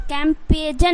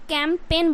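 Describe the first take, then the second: First: कैंपेजन with g sounded; कैंपेजन: g pronounced wrongly; wrong pronunciation. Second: कैंपेन with silent g, kem-pen; correct pronunciation. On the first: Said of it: "कैंपेजन नहीं बोलना है". (कैंपेजन, गलत उच्चारण) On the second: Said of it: "कैंपेन बोलना है". (कैंपेन, सही उच्चारण) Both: Shown as a demonstration.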